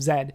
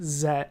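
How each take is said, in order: First: The letter is said as zed. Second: The letter is said as zee. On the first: "instead of Z" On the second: "How dare I pronounce it Z"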